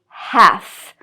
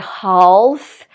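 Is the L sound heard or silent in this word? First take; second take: silent; heard. First: The L sound is silent before the F. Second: The L sound is pronounced before the F. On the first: The speaker calls it right. "It should be half" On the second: The speaker calls it wrong. "I'm going to pronounce the L, but we don't say half"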